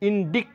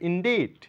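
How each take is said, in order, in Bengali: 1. c কে k শব্দের মতো উচ্চারণ করা হয়। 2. c নীরব, একেবারেই উচ্চারণ করা হয় না। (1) "এটা ইনডিক্ট বলে থাকি" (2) "এখানে সি এর কোনো সাউন্ড নেই, হবে ইনডিট"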